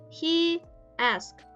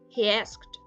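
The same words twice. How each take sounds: First: No extra sound comes between the words. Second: An extra glide sound joins the two words.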